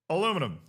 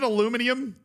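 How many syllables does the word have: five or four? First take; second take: four; five. First: It is said with four syllables, ending '-inum'. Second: It is said with five syllables, ending '-inium'. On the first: "American English is the right way" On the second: "There's another I after the N"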